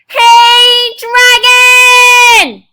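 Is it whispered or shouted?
shouted. It is shouted very loudly.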